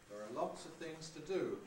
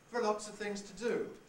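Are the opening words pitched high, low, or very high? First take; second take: low; high. First: The opening words are on a comfortable low pitch. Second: The opening words start on a high pitch. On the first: "with there are low pitched" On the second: "that's a high prehead"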